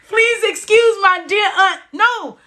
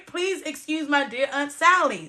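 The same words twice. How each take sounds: First: High-pitched laughing through words. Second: Said in the usual way. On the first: Real, not acted. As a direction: laugh while saying it, crying-laugh. Laughing while recalling mnemonic.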